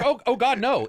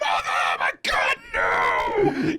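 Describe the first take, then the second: First: It sounds mildly dismayed, like a grandmother. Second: It sounds terrified, like someone fleeing in panic.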